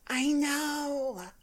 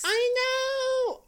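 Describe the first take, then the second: First: It is said more quietly. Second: It is shouted loudly.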